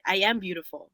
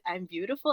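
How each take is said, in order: First: It is said firmly, as a plain statement. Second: It is said hesitantly, as if questioning. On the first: It is stated as the truth. The speaker calls it right. "say it as a fact" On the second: The claim is being questioned. The speaker calls it wrong. "Like you're questioning it"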